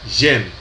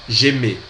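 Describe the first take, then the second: First: It ends on the consonant m sound. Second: It ends with an added open e vowel. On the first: The speaker calls it wrong. "No caso aqui não é j'aime" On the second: The speaker calls it right. "Essa é a pronúncia"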